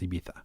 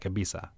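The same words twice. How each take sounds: First: It is said with a Spain Spanish accent. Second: It is said with a Mexican Spanish accent.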